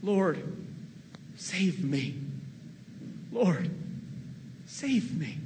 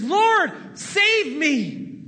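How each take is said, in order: First: Understated plea for help, softer; a quiet, sinking call to the Lord; mild fearful cry. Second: Much higher and louder, crying out; desperate cry. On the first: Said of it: "and he cried out". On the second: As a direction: shout it like a man going under. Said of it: "But then Peter says". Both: Retold or imitated.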